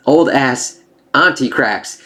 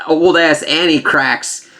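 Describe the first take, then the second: First: "auntie" said with an open ah, AHN-tee, slowly; corrected word. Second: "Annie" said with a flat a, like the name Annie; blurted "Annie" in place of auntie; slip of the tongue. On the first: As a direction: set the record straight on "auntie", ahn-tee. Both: Real, not acted.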